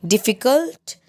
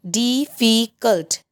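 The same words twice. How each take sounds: First: Said in the usual way. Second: "difficult" slowly in three separate beats; syllable by syllable. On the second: Shown as a demonstration. Teacher showing three syllables, "difficult" slowly split up. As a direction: break "difficult" slowly into di, fi, cult. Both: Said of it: "three syllables".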